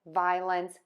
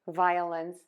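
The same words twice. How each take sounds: First: It is said in two beats, no middle vowel. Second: A short schwa is added in the middle. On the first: "saying two beats" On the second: "you can add that schwa"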